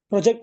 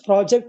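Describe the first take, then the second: First: The stress is on the second syllable. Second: The stress is on the first syllable.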